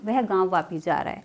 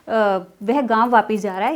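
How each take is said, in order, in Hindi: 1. यह सामान्य वाक्य वाले लहजे में बोला गया है। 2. यह सवाल वाले लहजे में बोला गया है। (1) "इसे ही अगर हम बिल्कुल एक नॉर्मली बोलेंगे" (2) "अब ये क्वेश्चन नहीं रहा"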